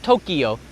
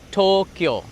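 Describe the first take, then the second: First: The word is said with three syllables. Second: The word is said with two syllables. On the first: The speaker calls it wrong. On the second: The speaker calls it right. "Two syllables"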